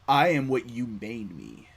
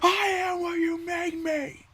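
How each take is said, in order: First: It is said calmly, without yelling. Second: It is yelled loudly, like angsty Anakin.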